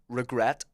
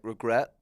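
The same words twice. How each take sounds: First: The final T is pronounced fully and crisply. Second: The final T is softened and barely pronounced. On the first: "really pronounce it" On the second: "they soften T's and words"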